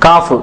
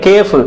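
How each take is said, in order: First: The vowel sounds like a long 'aa' in the name. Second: The vowel sounds like 'ay' in the name. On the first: The speaker calls it right. "നമ്മൾ ഇത് മൂന്നും കാഫ് എന്ന് മനസ്സിലാക്കിയിരിക്കുക" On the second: The speaker calls it wrong. "ചില ആൾക്കാർ ഇനി കേഫ് എന്നൊക്കെ ഉപയോഗിക്കാറുണ്ട്"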